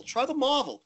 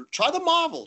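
First: Put-on British accent. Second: Put-on "Try the Marvel" pitched high in a British accent; British mate pushing the Marvel, up high. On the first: Bowler imitates Stu repeating his ball advice, British accent fading. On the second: Bowler imitates Stu recommending the Marvel ball, high British accent. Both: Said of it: "in his British accent".

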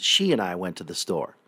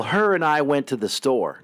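First: She and I with she stressed, lower. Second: Her and I with her stressed. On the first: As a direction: hit the word she. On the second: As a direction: hit the word her. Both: Shown as a demonstration. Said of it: "No, it's".

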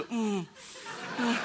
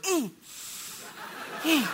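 First: Smaller, restrained closed-mouth hum; toned-back stifled cheer. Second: High, closed-mouth squeal of excitement; stifled cheer. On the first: Husband avoiding scaring wife, toned-back hum. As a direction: squeeze the excitement down to a murmur. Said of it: "tone it back to". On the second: Husband forbidden to yell, stifled cheering. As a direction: hold the shout in behind closed lips. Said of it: "I was like". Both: Retold or imitated.

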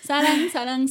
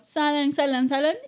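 First: Saran said with a tapped r; wrong r version. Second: Salan with a clear l, not an r; Korean salan. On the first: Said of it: "No es, no es saran". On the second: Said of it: "no es saran, es salan". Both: Shown as a demonstration.

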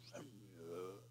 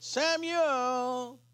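First: Very low, hushed, otherworldly call; God's voice. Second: Drawn-out call of the name; voice calling Samuel. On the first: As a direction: drop right down into a deep, faint rumble. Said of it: "He would have known it wasn't Eli". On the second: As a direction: call out in an ordinary human voice, stretching the name. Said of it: "and the voice said". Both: Retold or imitated.

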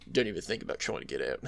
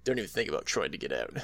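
First: Low, fast, creepy Aussie voice; creepy little voice. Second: Creepy little voice. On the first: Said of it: "him having that, like, creepy little voice". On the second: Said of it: "creepy little voice". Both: Retold or imitated. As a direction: menace him quietly and fast.

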